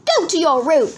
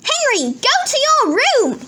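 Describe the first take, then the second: First: Yelling dad. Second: High, loud scolding order; yelling mum. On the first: Dad sends Peter out, loud stern yell. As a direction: yell it firmly like a stern father. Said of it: "yelled Dad". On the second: Mum sends Henry out, high loud yell. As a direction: yell it high like a cross mother. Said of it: "yelled Mum". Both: A narrator's reading.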